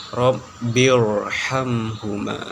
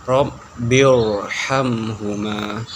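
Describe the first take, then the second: Both takes have the same delivery.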